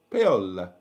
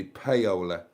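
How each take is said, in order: First: Attempted Italian accent, falling low; Italian-accented name, dropping in pitch; best Italian accent. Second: Said in the usual way. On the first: Shown as a demonstration. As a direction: say "Paola" as Italian as you can. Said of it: "best Italian accent". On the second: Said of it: "It's gotta be paola".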